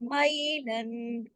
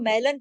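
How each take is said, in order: First: The first syllable has a soft ay glide. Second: The first syllable has a plain flat vowel. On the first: The speaker calls it right. "यालीन है ये" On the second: The speaker calls it wrong. "गलत हो जाएगा ना"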